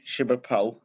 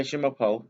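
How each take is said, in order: First: Je m'appelle said as zhuh ma-pell; French phrase. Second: Je m'appelle again as zhuh ma-pole, falling; French phrase. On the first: Showing how to say your name, a child says Je m'appelle. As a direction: spell out Je m'appelle for the viewers. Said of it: "that's how you say your name in French". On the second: Telling viewers how to introduce themselves, a child says Je m'appelle. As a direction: model Je m'appelle for the listener to copy. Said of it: "You say". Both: Shown as a demonstration.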